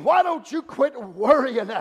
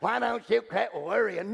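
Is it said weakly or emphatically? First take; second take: emphatically; weakly. First: It is said strongly, with real emphasis. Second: It is said weakly, without emphasis.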